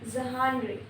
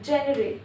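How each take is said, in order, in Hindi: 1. शब्द 'zh' ध्वनि से शुरू होता है। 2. शब्द 'j' ध्वनि से शुरू होता है।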